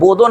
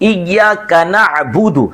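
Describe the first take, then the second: First: The last vowels are 'o' sounds. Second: The last vowels are 'u' sounds. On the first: The speaker calls it wrong. "बोदो ना बोले" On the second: The speaker calls it right. "बल्कि"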